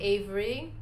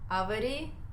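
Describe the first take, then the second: First: It is said with a plain American accent. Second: It is said with a Russian-style accent.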